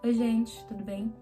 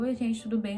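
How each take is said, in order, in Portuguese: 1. É falada devagar e com calma. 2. É falada rápida e apressadamente.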